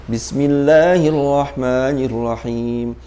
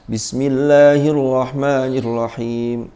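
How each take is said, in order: The two takes are said the same way.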